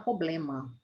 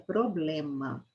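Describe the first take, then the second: First: The word is said in an easier, simplified form. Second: The word is said with its full standard sounds. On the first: The speaker calls it wrong. "muito mais fácil falar problema" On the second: The speaker calls it right. "o correto é problema"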